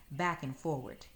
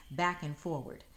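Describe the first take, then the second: No difference in how they are said.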